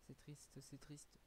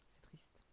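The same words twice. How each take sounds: First: Said in the usual way. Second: Soft unvoiced whisper, barely there. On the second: Real, not acted. Streamer sighing to himself about watching alone, whispered. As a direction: breathe it out as a sad aside.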